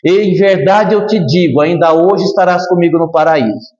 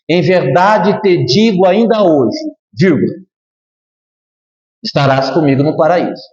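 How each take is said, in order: First: The pause comes before 'ainda hoje'. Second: The pause comes after 'ainda hoje'.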